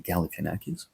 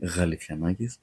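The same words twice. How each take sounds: First: The name starts with a hard G sound. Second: The name starts with a soft 'gh' sound. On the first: The speaker calls it wrong. "you say Galifianakis" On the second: The speaker calls it right. "it's pronounced as Gha in the beginning"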